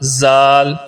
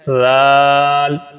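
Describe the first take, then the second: First: The first sound is pronounced hard and harsh. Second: The first sound is pronounced soft and gentle. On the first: The speaker calls it wrong. "आप पढ़ते हैं जाल जाल, ये गलत है।" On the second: The speaker calls it right. "सही क्या है, राल।"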